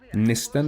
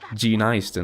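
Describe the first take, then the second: First: The word begins with no G sound at all. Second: The first vowel is said like eye. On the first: The speaker calls it right. "You can just take the G away completely, make it silent" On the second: The speaker calls it wrong. "as long as you don't say I"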